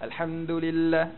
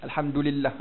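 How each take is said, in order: First: "Alhamdulillah" with a hard, pressed D, slowly; "Alhamdulillah" with the D pressed too hard; wrong dal. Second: "Alhamdulillah" with a soft dal on the tongue tip; "Alhamdulillah" with a light, soft Arabic dal. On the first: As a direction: show the wrong heavy D in "Alhamdulillah". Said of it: "Bukan alhamdulillah". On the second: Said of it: "Dia di hujung-hujung lidah". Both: Shown as a demonstration.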